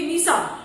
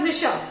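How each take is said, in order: First: निशा said with a plain 's', as nisaa; mispronounced s for sh. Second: निशा with a clear 'sh', nishaa; correct sh sound. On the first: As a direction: say निशा wrongly as ni-saa. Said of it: "ये गलत word है". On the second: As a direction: say निशा properly as ni-shaa. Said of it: "सही word क्या है?". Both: Shown as a demonstration.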